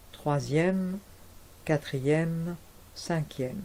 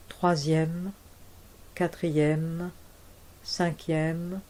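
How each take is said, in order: Both takes have the same delivery.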